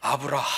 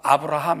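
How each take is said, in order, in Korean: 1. h 소리는 목에서 깊게 숨을 내쉬는 소리예요. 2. h 소리는 가볍고 평범해요. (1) "이렇게 돼야 되고요" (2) "이렇게 부르면 안 되고"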